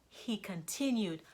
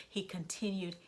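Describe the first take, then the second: The two takes are said the same way.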